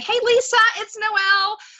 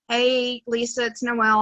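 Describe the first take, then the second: First: The voice sounds cheerful and excited. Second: The voice sounds flat and unenthusiastic. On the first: The message leaves a bigger impact. The speaker calls it right. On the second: The message leaves little impact. The speaker calls it wrong.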